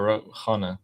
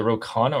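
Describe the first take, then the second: First: Khanna said with a throaty Kh; "Khanna" tried out with a Persian-style Kh; alternative pronunciation. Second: Khanna said with a plain K; "Khanna" tried out with an ordinary English K; alternative pronunciation. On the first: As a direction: say "Khanna" starting with a soft, raspy Kh. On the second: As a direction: say "Khanna" starting with a hard K sound. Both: Shown as a demonstration. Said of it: "How do you pronounce it?".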